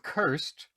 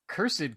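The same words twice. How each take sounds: First: The word is said as one syllable. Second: The word is said as two syllables. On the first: "I go with this single syllable. I go with cursed" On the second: "cursed kind of sounds old school"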